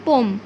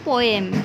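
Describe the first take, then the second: First: The word is said with one syllable. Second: The word is said with two syllables. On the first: The speaker calls it right. "কি হবে? পোম" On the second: The speaker calls it wrong. "আমরা এই ওয়ার্ডটাকে কি বলি সব সময়? ... কিন্তু এটা পোয়েম হবে না"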